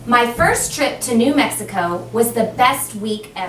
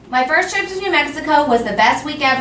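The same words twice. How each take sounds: First: It is read with natural pauses and a final stop. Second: It is read without stopping, running into the next. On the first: The reader treats it as if punctuated. The speaker calls it right. "But it sounded like it" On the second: The reader ignores any punctuation. The speaker calls it wrong. "What if I read it without?"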